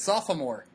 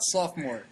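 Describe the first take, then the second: First: The middle 'o' sound is clearly pronounced. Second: The middle 'o' sound is dropped. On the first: The speaker calls it right. "pronunciate the extra O" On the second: The speaker calls it wrong. "it's not sophomore"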